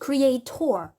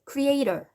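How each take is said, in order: First: The stress is on the last syllable. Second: The stress is on the middle syllable. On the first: "여기에 강세를 둬서 발음을 많이 할 때가 있어요. ... 여기 원래 강세가 가는 건 아니에요" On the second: "이렇게 중간에 강세가 가야 되는 게 정상이긴 한데"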